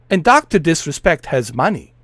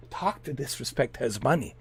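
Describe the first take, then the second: First: Said in the usual way. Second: The same line dropped much softer, almost to himself; hushed aside. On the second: Real, not acted. Repeating to viewers that the streamer is rich, softly. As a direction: let it fall away to a murmur.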